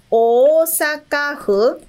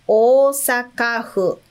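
First: Slow Osaka-fu with a rising end, syllable by syllable; model word, rising. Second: Slow Osaka-fu, falling to a settled close; model word, falling. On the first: Teacher modelling Osaka-fu for students, slow with a rising end. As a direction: lift the end of Osaka-fu like a question. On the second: Teacher repeating Osaka-fu for students, slow and falling. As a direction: set Osaka-fu down with a firm fall. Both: Shown as a demonstration. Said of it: "Fu tem dois".

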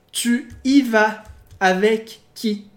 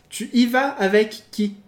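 First: Slow, deliberate "Tu y vas avec qui?" with every word separated; slow model sentence for students; slow careful reading. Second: Said in the usual way. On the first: Shown as a demonstration. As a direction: read "Tu y vas avec qui?" slowly for learners. Teacher reads example slowly.

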